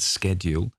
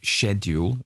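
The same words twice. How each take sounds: First: It is said with an American pronunciation. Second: It is said with a British pronunciation.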